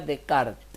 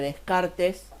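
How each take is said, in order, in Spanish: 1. El nombre se dice con su pronunciación real. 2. El nombre se lee tal como se escribe. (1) "pero se pronuncia Descartes" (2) "el apellido se escribe Descartes"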